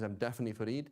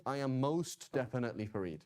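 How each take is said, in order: First: Said in the usual way. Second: Emphatic "most definitely", weight on "most". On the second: Shown as a demonstration. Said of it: "to make it very, very emphatic".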